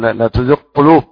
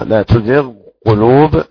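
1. يُدغم الحرفان ويصيران صوتًا واحدًا. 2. يُنطق الحرفان منفصلين وبوضوح. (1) "لا تقل" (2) "وكذلك حرف الحلق"

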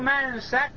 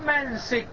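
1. السين متبوعة بحركة الفتحة. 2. السين متبوعة بحركة الكسرة. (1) "بفتح السين" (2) "وكسرها"

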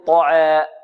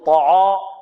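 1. حرف المد يميل نحو صوت الكسرة. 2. حرف المد ثقيل وغليظ. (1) "ولا يميل أو يقلل فيقول طعاء" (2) "لا يغلظ أو يفخم يقول طعاء"

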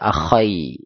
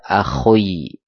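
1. Kh diikuti vokal ai. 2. Kh diikuti vokal oi. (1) "Enggak bisa dibaca akhai, nanti artinya beda lagi" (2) "Atau dibaca akhoi, beda lagi"

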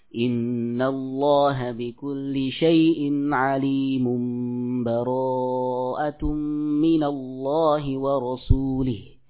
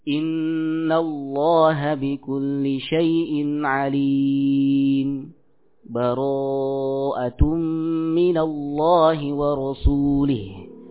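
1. Kedua frasa itu tersambung tanpa jeda sama sekali. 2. Jeda singkat tanpa mengambil napas memisahkan keduanya. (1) "disambung akhir surah Al-Anfal dengan surah At-Taubah" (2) "Berhenti tanpa kita mengambil nafas. Berhenti sejenak"

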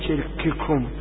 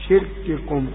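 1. تُنطق أصوات الكاف مع جريان نفس زائد. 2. أصوات الكاف وقفات محكمة دون جريان نفس. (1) "لا تقول شرككم" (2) "قل ... شرككم"

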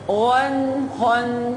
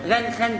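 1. الغنة بتتمد شوية زيادة. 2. الغنة بتتقطع بسرعة. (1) "لا غن خن" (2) "متقولش غن خن غن خن غن خن"

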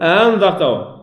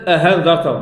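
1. الهمزة الثانية مُسهَّلة بين الهمزة والألف. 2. الهمزة الثانية تُبدَّل بصوت الهاء. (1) "فقل أأنذرتهم" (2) "وليست هاء وليست أهانذرتهم"

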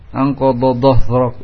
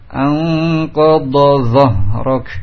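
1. Kedua konsonan emfatik itu dilafalkan dengan bunyi yang sama. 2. Kedua konsonan emfatik itu terdengar berbeda satu sama lain. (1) "Atau tidak dengan dha semua" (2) "dari dha ke dha. Dibedakan"

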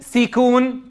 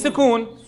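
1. يتبع الحرف الأول حركة الكسرة (i). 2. لا يتبع الحرف الأول أي حركة.

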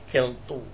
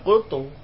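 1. Vokal pertama adalah bunyi e. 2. Vokal pertama adalah bunyi u. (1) "Tak boleh keltu" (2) "ya kultu"

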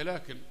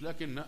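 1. صوت النون مفرد وقصير. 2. صوت النون مشدد ويُمَدّ أطول. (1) "هي لكن يا أخوانا مخففة" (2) "هي مش لكن"

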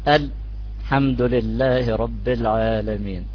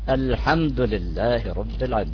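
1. السكت الخفيف يقطع العبارة لتبيين اللام. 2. العبارة تجري متصلة بدون أي سكت خفيف. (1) "من شان أبين اللام، أو بسموها لتحقيق اللام" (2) "تستطيع تبين اللام ... بدون مشكلة"

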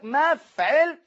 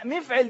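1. أول مقطع بيتنطق بحركة 'a'. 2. أول مقطع بيتنطق بحركة 'i'. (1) "الميم مفتوحة" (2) "مفعل دي غلط، يعني ربنا يكرمك دي لهجه الفلاح"

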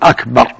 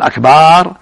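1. الحركة قبل الراء الأخيرة قصيرة. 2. الحركة قبل الراء الأخيرة ممدودة. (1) "يقول أكبر يعني أعظم" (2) "إذا قال أكبر هذا جمع كبر"

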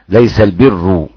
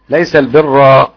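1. تنتهي كلمة al-birr بحركة الضمة. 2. تنتهي كلمة al-birr بحركة الفتحة. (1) "والباقي" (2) "ينصب البر حمزة وحفص"

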